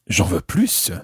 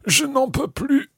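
First: "plus" finished with an audible S; sounded final S. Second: Much higher voice, "plus" ending without its S; silent final S. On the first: Teacher asking for more, "plus" with the S sounded. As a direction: let the S ring out on "plus". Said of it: "there you're hearing the S". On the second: Teacher acting being full after a big meal, "plus" with silent S. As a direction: pitch it high, leave the S of "plus" silent. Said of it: "if I were to say". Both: Shown as a demonstration.

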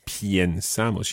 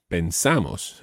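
First: Piensamos with an added ie glide in the first syllable; wrong radical change. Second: Pensamos with a plain e in pen, stress on sa; no radical change. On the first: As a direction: say pyen-SA-mos for piensamos. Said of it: "You don't say piensamos". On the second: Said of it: "the stress is not on that first syllable". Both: Shown as a demonstration.

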